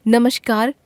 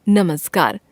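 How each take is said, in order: First: नमस्कार said with sh as "namashkar"; the wrong form of नमस्कार, sounded "namashkar"; wrong spelling said aloud. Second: नमस्कार said with s as "namaskar", falling; the corrected नमस्कार, clearly "namaskar"; correct form. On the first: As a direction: read out the misspelt नमस्कार with sh. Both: Shown as a demonstration. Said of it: "श, श, स की अशुद्धियां".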